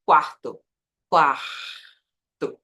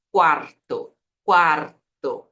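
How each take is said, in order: First: Quarto with a throaty, untrilled R; Portuguese R. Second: Quarto with a tongue-tip rolled R; Spanish trilled R. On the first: Teacher showing how it sounds in Portuguese, throaty R. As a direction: stretch quarto with an h-like R. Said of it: "eu falo em português". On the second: Teacher showing how it sounds in Spanish, trilled R. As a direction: vibrate the R inside quarto. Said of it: "Em espanhol é". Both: Shown as a demonstration.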